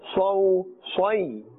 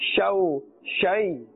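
First: The syllables are pronounced thick, with a full mouth. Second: The syllables are pronounced thin, with a light mouth. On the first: The speaker calls it right. "we are pronouncing this with a full mouth" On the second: The speaker calls it wrong. "This is incorrect"

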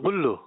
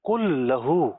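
First: It begins with a g sound, run together. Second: It begins with a k sound, two separate words.

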